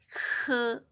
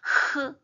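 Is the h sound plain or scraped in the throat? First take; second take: plain; scraped. First: The h is a soft, easy breath. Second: The h scrapes harshly in the throat. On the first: "그냥 편하게 하면 되는데" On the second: "한번 목을 긁어 흐 이렇게"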